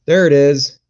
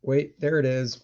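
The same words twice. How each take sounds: First: Blurted "there", louder, as the picture pops up; loud relieved "there it is". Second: Softer "there it is", almost to himself; quiet double take. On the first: Streamer finally sees camera picture, loud surprised call. Camera image suddenly appears. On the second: Streamer rechecking his camera, quiet muttered confirmation. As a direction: say it under your breath, confirming. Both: Real, not acted.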